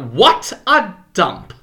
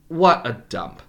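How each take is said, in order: First: It is said with a high, rising pitch. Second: It is said with a low, falling pitch.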